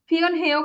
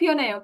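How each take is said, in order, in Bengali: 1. মাঝের h ধ্বনিটি উচ্চারণ হয়। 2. মাঝের h ধ্বনিটি বাদ যায়। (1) "কখনো উচ্চারণ করবেন না" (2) "উচ্চারণ কি হবে? ফিওনেও"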